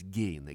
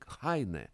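First: The name starts with a G sound, 'Geine'. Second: The name starts with an H sound, 'Haine'. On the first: This is the customary form used in the speaker's own language. "по-русски его принято называть Гейне" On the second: This is how the name is said in its home language. "по-немецки произносится фамилия Хайне"

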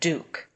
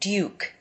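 First: The oo vowel comes with no y sound. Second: A y sound comes before the oo vowel. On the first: The speaker calls it wrong. "instead of duke" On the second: The speaker calls it right. "adding a little bit of a Y sound before the oo"

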